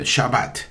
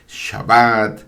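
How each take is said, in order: First: The stress is on the first syllable. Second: The stress is on the last syllable. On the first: It reflects the school where it was learned. "algunos lo dicen eh, Shabbat" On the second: It follows the Hebrew stress rule. "el acento recae siempre en la última sílaba. Es Shabbat"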